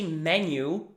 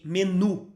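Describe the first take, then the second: First: The word is pronounced the English way. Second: The word is pronounced the Portuguese way. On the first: The speaker calls it wrong. "We don't say menu" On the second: The speaker calls it right. "we say menu"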